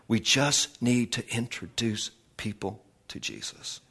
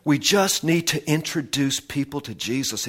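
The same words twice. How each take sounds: First: Spaced out and softened, trailing down; hushed emphasis. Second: Said in the usual way. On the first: Real, not acted. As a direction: let the key line sink in quietly. Final repeat, slowed and softened.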